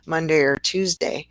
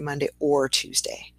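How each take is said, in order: First: The word 'or' is reduced to a weak 'er'. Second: The word 'or' is said with its full vowel. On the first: The speaker calls it right. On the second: The speaker calls it wrong.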